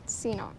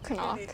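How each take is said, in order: First: The word begins with a 'see' sound. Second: The word begins with a 'kuh' sound. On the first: "Seanock sounds better" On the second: "You heard me"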